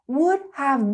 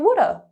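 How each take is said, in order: First: Have is pronounced clearly as a full word. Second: Have is reduced to a quick uh sound. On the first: "when you learn something um, in a lesson, it's very clear" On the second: "when we're speaking quickly, we like to smush things together"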